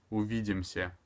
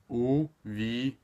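First: Said in the usual way. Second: "Увидимся" drawn out slowly in separate syllables; slow teaching take of "Увидимся". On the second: Shown as a demonstration. Teacher breaks word into syllables.

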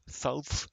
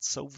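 First: South said with a light English accent, laughing at himself; a hint of English accent on South. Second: Said in the usual way. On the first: Shown as a demonstration. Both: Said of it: "avec mon accent anglais".

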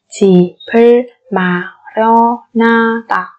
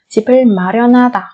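First: Slow 집을 마련하다, each syllable on its own. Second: Said in the usual way. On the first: Shown as a demonstration. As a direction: space out every syllable of 집을 마련하다. (đọc 집을 마련하다 chậm từng âm tiết)

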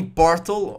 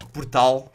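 First: Portal said the English way; "Portal" with English stress up front; English pronunciation. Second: Portal said the Portuguese way; "Portal" as a Portuguese word, end-stressed; Portuguese pronunciation. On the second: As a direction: say "Portal" with the stress on the last syllable. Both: Shown as a demonstration. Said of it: "como quiserem pronunciar".

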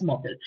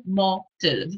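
First: Said in the usual way. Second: "mo, tyl" split with a clear pause; syllable by syllable. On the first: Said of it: "powstał wyraz motyl". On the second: Shown as a demonstration. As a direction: sound out "mo", then "tyl", separately. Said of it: "odczytywać te sylaby i układać z nich".

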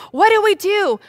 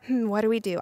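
First: High, loud panicked cry; frantic, loud and high; acted panic. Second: Small, subdued worry; acted anxious murmur; quiet fear. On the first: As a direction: cry out in hammed-up desperation. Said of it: "they're also really scared". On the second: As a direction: fret under your breath. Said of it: "and they were scared".

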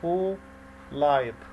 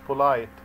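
First: "Polite" slowly as two separate beats, po, lite; split into syllables. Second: Said in the usual way. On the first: Shown as a demonstration. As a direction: leave a clear gap inside "Polite": po - lite. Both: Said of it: "عشان هي فيها two syllables".

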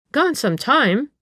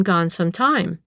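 First: High, drawn-out incredulous echo; exclaimed in surprise. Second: Said in the usual way. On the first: A narrator's reading. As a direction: repeat it slowly in disbelief, pitched up. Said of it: "Missus Tufnell exclaimed".

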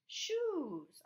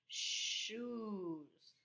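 First: Shoes said high and a little louder; bright reveal. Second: Shoes with the sh held long, shh-oes; stretched sh. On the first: Teacher to pupils, cheerful high reveal of the word. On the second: Teacher showing pupils the sh sound, stretched sh. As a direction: lean on the sh sound at the start of Shoes. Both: Shown as a demonstration. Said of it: "S H says sh when it's together".

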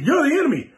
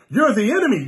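First: Pushed higher, the accusation escalating; mock angry man building up his charge; rising accusation. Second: A mild imitation of the angry Igbo man; accusing mock quote. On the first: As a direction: repeat it pitched higher and more insistent. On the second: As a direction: point the finger in their voice. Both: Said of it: "They'll hear us teach and go".

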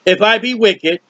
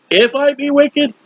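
First: Said in the usual way. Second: "wicked" pitched up and leaned on; stress on wicked. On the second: Shown as a demonstration. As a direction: lift and hit "wicked" the second time.

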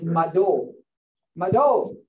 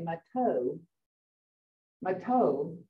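First: Mado with a d in the middle; D sound, not T. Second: Mato with a crisp English t; softer, lower mato with a plain T; English T sound. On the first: Teacher correcting the English T, mado with a D sound. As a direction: say mado with the middle consonant voiced as d. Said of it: "that doesn't come out. It's Mado". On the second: Teacher showing learners the English way that fails, mato with T. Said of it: "doing the T sound in English". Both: Shown as a demonstration.

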